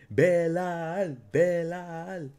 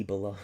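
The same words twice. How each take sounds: First: Bilal drawn out as bɛ-LAL, much higher, in a put-on voice; sing-song mock of the name Bilal, stressing LAL. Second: Said in the usual way. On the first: Streamer teasing the fighter Bilal for chat, mocking high voice.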